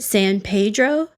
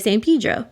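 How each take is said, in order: First: The name is said the way outsiders say it. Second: The name is said the way locals say it. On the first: This is how the rest of the county says it. "much of the rest of Los Angeles pronounces it San Pedro" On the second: This is how residents of the town say it. "the people in San Pedro say San Pedro"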